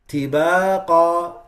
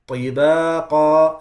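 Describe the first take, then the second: First: The first consonant is light and thin. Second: The first consonant is heavy and deep. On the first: The speaker calls it wrong. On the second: The speaker calls it right.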